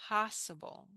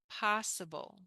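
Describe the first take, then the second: No difference in how they are said.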